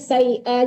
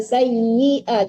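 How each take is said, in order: First: The doubled y sound is weak and unclear. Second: The doubled y sound is held clearly. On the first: The speaker calls it wrong. "jangan sayyi'a aja" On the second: The speaker calls it right. "tasdid itu tuh harus dijelaskan"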